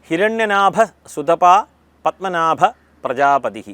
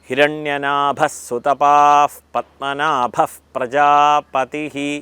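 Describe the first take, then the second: First: Sutapa ends without any breathy h sound. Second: Sutapa ends with a breathy h sound. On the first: The speaker calls it wrong. "ഇത് കേട്ട് കാണും" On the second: The speaker calls it right. "ഇതെങ്ങനെയാണ് ഉച്ചരിക്കേണ്ടത്?"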